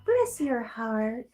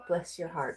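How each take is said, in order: First: It is said in a put-on church lady voice. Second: It is said in her normal voice.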